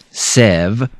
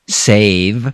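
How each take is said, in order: First: The vowel is a short E sound. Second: The vowel is a long A sound. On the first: The speaker calls it wrong. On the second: The speaker calls it right.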